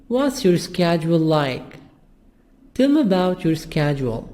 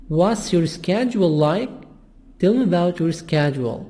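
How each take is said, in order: No difference in how they are said.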